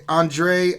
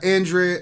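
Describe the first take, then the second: First: "Andre" as "AHN-dray"; open AHN-dray. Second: "Andre" with a flat a as in "and"; first-syllable AN. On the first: Correcting a viewer's name, "Andre" said "AHN-dray". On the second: Reading a viewer's name, "Andre" begun as "AN". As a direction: say "Andre" starting like the word "and". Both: Real, not acted.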